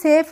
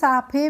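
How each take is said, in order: First: The vowel is 'ay' and the final e is silent. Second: The vowel is 'aa' and the final e is sounded. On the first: The speaker calls it right. "इसको हम सेफ ही क्यों पढ़ते हैं" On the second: The speaker calls it wrong. "लेकिन इसको हम साफे नहीं पढ़ते हैं"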